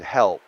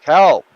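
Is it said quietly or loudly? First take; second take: quietly; loudly. First: It is said quietly. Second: It is said loudly.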